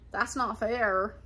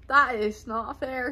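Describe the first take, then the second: First: Said in the usual way. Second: "is" drawn out and emphasized; stress on IS. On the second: Real, not acted. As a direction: lean slowly and firmly on "is". Repeats the complaint with emphasis.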